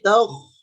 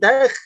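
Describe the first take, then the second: First: The consonant is heavy, with a raised tongue back. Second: The consonant is light, without a raised tongue back. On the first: The speaker calls it right. "tapi taukh" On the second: The speaker calls it wrong. "bukan takh"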